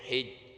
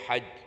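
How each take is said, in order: First: The vowel is a front 'i' sound. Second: The vowel is an open 'a' sound. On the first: "boleh dibaca hij haknya kasrah" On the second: "boleh dibaca haj fathah haknya"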